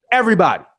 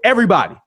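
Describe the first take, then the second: No difference in how they are said.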